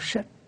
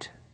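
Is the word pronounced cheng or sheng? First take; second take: sheng; cheng. First: It is pronounced sheng with a falling tone. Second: It is pronounced cheng with a rising tone. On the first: This is the old reading of the word. "古时候读音读去神，读圣" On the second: This is the reading people commonly use. "大家都念成，我们就念成"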